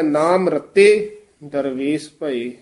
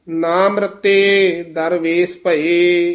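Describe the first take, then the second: First: ਨਾਮ ਰਤੇ, clear stop, then ਦਰਵੇਸ ਭਏ; pause after phrase. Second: Said in the usual way. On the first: Shown as a demonstration. Teacher correcting the reciter, pause after ਨਾਮ ਰਤੇ. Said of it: "ਇੱਥੇ ਵਿਸਰਾਮ ਹੈ". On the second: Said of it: "ਵਿਸਰਾਮ ਧਿਆਨ ਨਾਲ ਲਾਉਣਾ".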